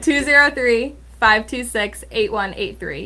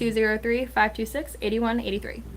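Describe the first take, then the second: First: The number is read slowly. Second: The number is read quickly. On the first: The speaker calls it right. "I'll do it slower" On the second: The speaker calls it wrong. "she said that really fast"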